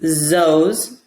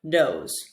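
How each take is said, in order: First: The word begins with a buzzing z sound. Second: The word begins with a d sound. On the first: "with another voiced sound, like an, uh, a Z" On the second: "or a D"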